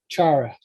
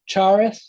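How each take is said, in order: First: The th is gone, ending in a breath. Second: The final th sound is clearly pronounced. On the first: "it then just becomes like ... a breath at the end" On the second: "you can hear the th"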